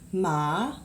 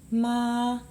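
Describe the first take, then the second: First: The pitch rises from low to high. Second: The pitch stays level and held. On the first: "Second tone is this line that goes up" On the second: "Doesn't move, doesn't go up or down"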